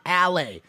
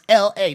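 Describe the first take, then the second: First: The letters blur into one two-syllable word. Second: Two separate letter names are spoken. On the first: The speaker calls it wrong. "not alley" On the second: The speaker calls it right. "It's L A"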